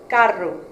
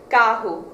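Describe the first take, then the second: First: The double R is a clearly enunciated R. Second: The double R sounds like an H. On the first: This is the European Portuguese pronunciation. "in Portugal it's a uh, enunciated R sound" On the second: This is the Brazilian pronunciation. "the way it's pronounced in Brazil. This is uh, an H sound with the double R"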